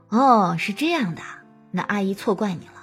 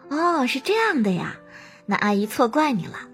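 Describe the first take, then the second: First: Slower, heavier breathing with a flat, plain tone. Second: Quick, light breathing with a bright, lively tone. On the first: It does not match a small child's mood. The speaker calls it wrong. "而不是" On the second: It suits talking to a small child. The speaker calls it right. "可以尝试把呼吸频率调得快一点，这样你的声音就自然会变成"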